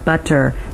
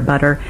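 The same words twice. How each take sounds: First: The T is pronounced the British way. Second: The T is pronounced the American way. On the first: "the British T" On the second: "the American one"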